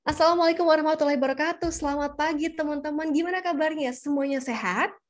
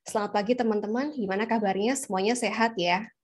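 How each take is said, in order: First: "Selamat pagi teman-teman" lifted high and energetic; lively intonation. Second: "Selamat pagi teman-teman" rattled off fast and flat; flat intonation. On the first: Presenter greeting friends, playing with intonation. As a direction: greet quickly, raising "gimana kabarnya" with lively pitch. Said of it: "coba deh main intonasi". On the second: Presenter greeting friends, flat intonation. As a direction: greet with "gimana kabarnya" kept level, uninterested. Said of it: "Itu flat banget". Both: Shown as a demonstration.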